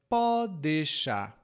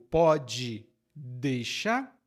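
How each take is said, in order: First: The words run together into three syllables. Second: Each word is said fully, in four syllables.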